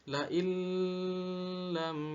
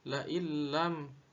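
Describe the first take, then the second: First: The merged consonant is held long with nasal hum. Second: The merged consonant is short with no nasal hum. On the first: The speaker calls it wrong. "tidak boleh dibaca" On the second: The speaker calls it right. "harus dibaca"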